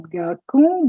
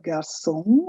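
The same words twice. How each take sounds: First: 'garçon' mispronounced with a K sound, gar-KON; slow wrong 'garçon' with K in the middle; wrong hard C. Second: 'garçon' with an S sound, gar-SON; soft C as S. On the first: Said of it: "which tells you it's not garçon". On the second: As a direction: model 'garçon' slowly, ç said as S. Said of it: "it gives C the sound of S". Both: Shown as a demonstration.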